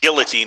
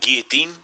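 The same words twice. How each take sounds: First: The word is said with an English pronunciation. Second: The word is said with a French pronunciation. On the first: "Guillotine is how you pronounce it, uh, en anglais" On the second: "I prefer the French French pronunciation"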